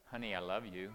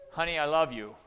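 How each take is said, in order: First: Said in the usual way. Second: Honey, I love you barked out much louder; an angry yell of "Honey, I love you"; angry shout. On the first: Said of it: "I could say". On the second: Shown as a demonstration. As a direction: snap the loving words like a threat. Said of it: "Or I could say".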